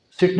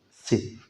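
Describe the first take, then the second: First: Said in the usual way. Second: "सिट" cut off as "si"; softer "सिट" with no T release; silent final T. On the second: Shown as a demonstration. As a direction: stop "सिट" before the T. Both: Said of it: "सिट नहीं करेंगे".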